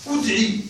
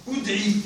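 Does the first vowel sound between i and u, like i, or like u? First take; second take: between; between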